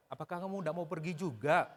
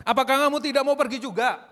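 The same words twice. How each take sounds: First: Soft question rising on "juga"; gentler questioning intonation. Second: "tidak mau pergi juga" loud and high, falling at the end; challenging intonation. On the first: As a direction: ask it softly, lifting "juga" at the end. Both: Shown as a demonstration.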